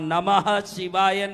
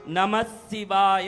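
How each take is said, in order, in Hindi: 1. "शिवाय" से पहले h की ध्वनि सुनाई देती है। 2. "शिवाय" से पहले h की ध्वनि सुनाई नहीं देती। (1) "वहां नमः शिवाय नहीं आएगा" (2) "नमः शिवाय आएगा व्याकरण के हिसाब से"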